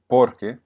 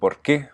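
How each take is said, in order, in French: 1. L'accent tombe sur la première syllabe. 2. L'accent tombe sur la dernière syllabe. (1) "On aurait pu le mettre sur le O au début, ça aurait fait porque, mais ça sonne pas aussi bien" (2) "vous voyez que c'est sur la dernière syllabe"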